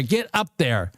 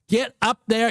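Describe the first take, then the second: First: Said in the usual way. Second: Higher, pushed plea to the chart; excited urging. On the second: Real, not acted. Trader urging the price up, excited and high. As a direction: cheer the price up like a horse.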